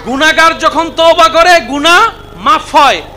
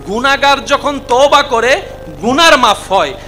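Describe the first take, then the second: First: It is said more loudly. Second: It is said at normal volume.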